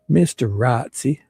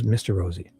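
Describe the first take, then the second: First: The name's middle has a sharp 'ts' sound. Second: The name's middle has a soft 'z' sound. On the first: It mocks the name on purpose. The speaker calls it wrong. "pronouncing it exactly opposite of how he wants to be pronounced" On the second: It is how he wants to be called. The speaker calls it right. "I know he said Rosie"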